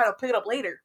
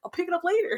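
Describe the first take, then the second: First: Said in the usual way. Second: Carefree singsong, much higher pitch. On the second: Retold or imitated. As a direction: lilt it up high and breezy. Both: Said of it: "When I'd be like".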